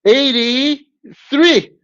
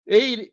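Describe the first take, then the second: First: "Eighty-three" stretched very slowly, higher and louder; drawn-out correction. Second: Said in the usual way. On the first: Shown as a demonstration. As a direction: announce "Eighty-three" slowly like a host's reveal. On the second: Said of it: "that's better. No".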